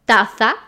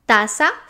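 First: The middle consonant is a th sound. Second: The middle consonant is an s sound. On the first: This is how it is said in Spain. "in Spain is pronounced" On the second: This is how it is said in Latin America. "Z in Spanish from Latin America is pronounced as an S"

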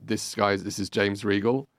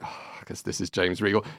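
First: It is said in a normal, neutral tone. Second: It is said in a disappointed, deflated tone.

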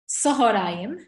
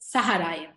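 First: The vowel after the h is an o. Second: The vowel after the h is an a. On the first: "there are people that will read this word sahorayim" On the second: "There are people that will read it saharayim"

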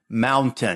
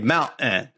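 First: Careful speech, with the T fully pronounced. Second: Connecticut accent, with the T swallowed.

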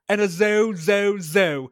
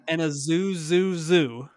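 First: It is said in an imitated British accent. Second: It is said without a British accent. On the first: "this British guy's like" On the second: "can you say it not in the British accent?"

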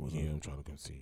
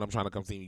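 First: It is said in a very deep voice. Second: It is said in a normal voice.

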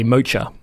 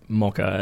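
First: Mocha is said the Indian way. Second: Mocha is said the Australian way.

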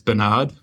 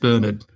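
First: The name is said the American way. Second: The name is said the British way. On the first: "They pronounce Bernard as Bernard" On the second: "the British and Irish pronunciation is Bernard"

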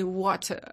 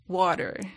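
First: The word is said in a British accent. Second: The word is said in a non-British accent. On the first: The speaker calls it right. "you say water. All the British" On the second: The speaker calls it wrong. "you don't say water"

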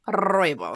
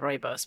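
First: The R at the start is rolled. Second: The R at the start is plain. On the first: "make sure you rooibos" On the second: "whenever you say rooibos"

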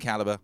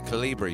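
First: The word ends without an 'ee' vowel sound. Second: The word ends with an 'ee' vowel sound. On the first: The speaker calls it right. "When I say calibre, I mean calibre" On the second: The speaker calls it wrong. "I used to pronounce it Calibri, you know, when I was a little kid"

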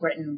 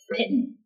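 First: The word begins with a B sound. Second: The word begins with a P sound. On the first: "used P instead of B, in which case we're not Britain" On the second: "we're Britain"

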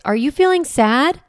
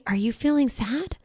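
First: It is said in a strong voice. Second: It is said in a gentle voice.

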